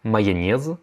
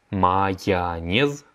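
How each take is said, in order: First: Said in the usual way. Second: Майонез stretched out slowly, each syllable clear; very slow repeat. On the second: Shown as a demonstration. Teacher models the word for students, very slowly. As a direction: drag майонез out slowly for learners. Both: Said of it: "la mayonnaise".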